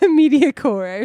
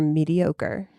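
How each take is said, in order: First: The word ends with a 'core' sound like Manticore. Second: The word ends with a standard 'oh-ker' sound. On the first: The speaker calls it wrong. "Mediacore or something like that, like Manticore" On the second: The speaker calls it right. "Did I say that right?"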